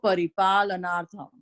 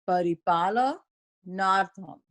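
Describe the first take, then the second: First: It is said faster, flowing as one sentence. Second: It is said slowly, word by word. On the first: "a little bit faster, as if each line is a sentence" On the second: "So now I've done it slowly"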